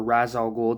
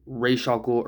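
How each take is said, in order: First: Ra's rhyming with "jazz"; RAZ pronunciation. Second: Ra's rhyming roughly with "aysh"; RAYSH pronunciation. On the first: Reviewer offering the other way to pronounce the villain's name, Ra's said "raz". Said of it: "depending on how you pronounce it". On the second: Reviewer offering one way to pronounce the villain's name, Ra's said "raysh". Depending on how you pronounce it. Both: Shown as a demonstration.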